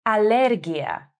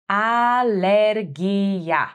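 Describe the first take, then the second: First: Said in the usual way. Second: Alergia stretched out slowly, each syllable clear; slow for repeating. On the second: Shown as a demonstration. Teacher to learners, slowly modelling Alergia. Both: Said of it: "plain take before slow repeat".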